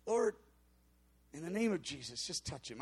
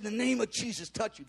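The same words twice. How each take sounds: First: A soft, much quieter mumbled prayer; barely muttering it, half-hearted; muttered prayer. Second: Said in the usual way. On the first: Retold or imitated. Pastor prays over a stranger without hope, muttered quietly. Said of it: "I just kinda whispered it and muttered it". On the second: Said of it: "I had some, a little bit of, of faith".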